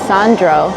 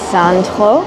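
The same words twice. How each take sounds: First: The name is said with an English accent. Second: The name is said with a French accent.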